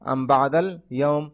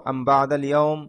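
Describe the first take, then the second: First: The word am ends on a bare m sound. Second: The word am ends on a bare m sound.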